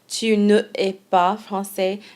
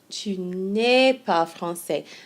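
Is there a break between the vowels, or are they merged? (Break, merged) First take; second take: break; merged. First: Both vowels are said, with a small break between. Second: The vowels merge into one smooth syllable. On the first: The speaker calls it wrong. "It's a little bit of a stop to pronounce both vowels" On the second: The speaker calls it right. "It's much more sing-songy. It flows a whole lot better"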